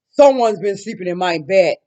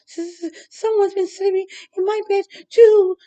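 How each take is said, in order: First: It is roared loudly in Papa Bear's voice. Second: It is stuttered nervously in Baby Bear's voice.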